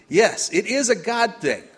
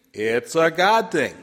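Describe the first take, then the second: First: "Yes, it is a God thing" raised and emphatic; louder repeat. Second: Slow, weighted "It's a God thing" with "God" stressed; model response. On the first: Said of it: "Let's practice". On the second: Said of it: "I want you to say with me". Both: Shown as a demonstration.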